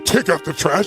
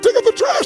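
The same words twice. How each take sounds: First: It is said in a grudging, reluctant tone. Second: It is said in an eager, happy tone.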